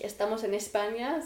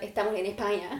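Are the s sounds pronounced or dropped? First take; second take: pronounced; dropped. First: The s sounds are clearly pronounced. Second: The s sounds are swallowed, Chilean style.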